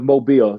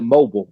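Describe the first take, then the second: First: It is said the way the city name sounds. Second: It is said like the everyday word mobile. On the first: This is how the city's own name is said. "instead of Mobile" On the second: An outsider who doesn't know the city would say it. "he would call it mobile"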